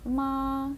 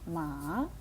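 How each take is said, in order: First: The pitch stays high and level. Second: The pitch rises from middle to high. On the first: "перший тон" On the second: "другий"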